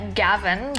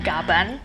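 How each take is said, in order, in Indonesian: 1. Konsonan tengahnya bunyi V. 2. Konsonan tengahnya bunyi B. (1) "namanya Gavan" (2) "lidah orang Indonesia kita ini kadang suka melafalkan V jadi B"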